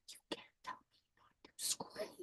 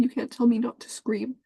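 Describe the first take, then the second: First: Slow, much softer, barely voiced; tearful whisper. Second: Said in the usual way. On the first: Real, not acted. Telling her dad he can't silence her, faint whisper. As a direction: let the words fall away into a whisper. Repeats line, second one whispered.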